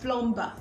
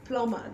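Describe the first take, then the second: First: The b sound is pronounced. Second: The b sound is left silent. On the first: The speaker calls it wrong. "not plumber" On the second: The speaker calls it right. "The B is silent"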